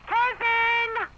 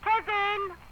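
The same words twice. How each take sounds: First: The name is called out more loudly. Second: The name is called out fairly quietly.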